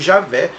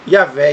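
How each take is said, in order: First: The name is said with Portuguese pronunciation. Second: The name is said with Hebrew pronunciation. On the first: "em português" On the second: "em hebraico"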